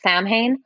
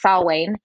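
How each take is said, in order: First: The name is said with a common anglicized pronunciation. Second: The name is said with its Celtic pronunciation. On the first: The speaker calls it wrong. "some people mispronounce it as Samhain" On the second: The speaker calls it right. "but it's Samhain"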